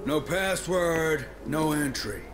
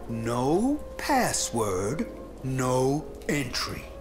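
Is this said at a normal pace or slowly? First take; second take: normal; slowly. First: The words are said at a normal pace. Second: The words are said at a slow pace.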